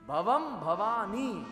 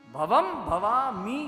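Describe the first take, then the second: First: The final syllable begins with an n sound. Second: The final syllable begins with an m sound. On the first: The speaker calls it right. "મી નથી, ની છે" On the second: The speaker calls it wrong. "ભવમ ભવામી નહીં"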